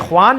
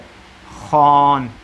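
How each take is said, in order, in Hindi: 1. kh के बाद w की आवाज़ सुनाई देती है। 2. kh के बाद w की आवाज़ सुनाई नहीं देती। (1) "तो ये ख्वान नहीं है" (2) "बल्कि ये है खान"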